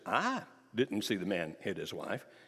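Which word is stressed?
see. The stress falls on the word see. The speaker learned of it some other way than seeing it. "did somebody tell you or did you hear it?"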